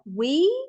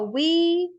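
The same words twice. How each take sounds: First: The pitch rises like a question. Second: The pitch stays flat like a statement. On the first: The speaker is asking to find out more. "as a question is like we" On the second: It is a plain statement. "just oh we"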